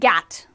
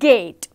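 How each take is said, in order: First: The vowel is the short A sound. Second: The vowel is the long A sound. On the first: The speaker calls it wrong. "We do not say gat" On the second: The speaker calls it right. "the long sound of A is gate"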